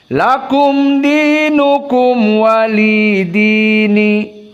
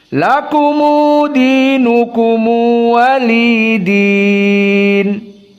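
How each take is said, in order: First: Each m ends without an added vowel. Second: Each m is followed by an added u vowel. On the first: "tidak ada silatul mim" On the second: "dengan Silatul Mim"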